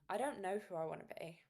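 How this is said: It sounds gentle and compassionate. The speaker accepts this calmly and kindly. The speaker calls it right. "say it in a compassionate tone of voice"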